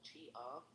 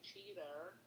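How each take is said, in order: First: It is said with a British pronunciation. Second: It is said with an American pronunciation. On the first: "lived in the U K, everyone says cheetah or cheetah like that" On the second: "when we hear somebody say cheater, cheater, we're like, wow, that's different"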